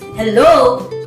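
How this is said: The pitch falls and then rises on the word. The speaker sounds doubtful. "With a fall rise, doubtful"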